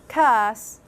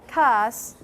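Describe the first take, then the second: Both takes have the same delivery.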